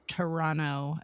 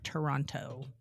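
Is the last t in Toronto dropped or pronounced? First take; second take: dropped; pronounced. First: The last t sound is left out. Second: The last t sound is clearly pronounced.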